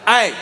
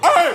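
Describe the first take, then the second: First: It is a steady, controlled yell. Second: The yelling voice cracks.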